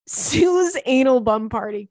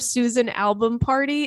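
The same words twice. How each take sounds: First: "Sue's Anal Bum Party" slow, with "Sue's" drawn out; slow, deliberate split reading of "Sue's Anal Bum Party"; misread hashtag split. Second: Said in the usual way. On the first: Shown as a demonstration. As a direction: stretch "Sue's", then set "Anal Bum Party" apart word by word. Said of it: "instead of Susan Album Party, it's". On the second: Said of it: "When it's all together in a hashtag".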